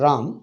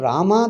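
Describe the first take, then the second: First: The final vowel is dropped, ending on a consonant. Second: The word ends with a full final vowel. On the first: "they pronounce ಎಸ್ ರಾಮ್" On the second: "ವೇರ್ ರಾಮ"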